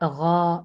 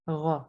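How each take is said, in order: First: The vowel is drawn out long. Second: The vowel is held only briefly. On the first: The speaker calls it wrong. "Not गौ, ऐसे नहीं" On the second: The speaker calls it right. "बस हाफ अलिफ के इक्वल हम उसे खींचते हैं"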